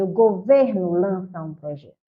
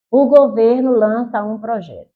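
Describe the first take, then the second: First: Said in the usual way. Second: Louder, stressed news headline; emphatic news read. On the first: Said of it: "Não deve ser assim, não". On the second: Shown as a demonstration. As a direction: read it like a proud headline for the government. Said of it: "Eu digo". (manchete lida com ênfase, mais alta)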